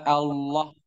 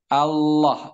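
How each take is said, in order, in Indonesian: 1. Diucapkan dengan bibir membulat dan maju ke depan. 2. Diucapkan tanpa membulatkan bibir. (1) "bukan Allah" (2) "Allah tanpa memajukan kedua bibir"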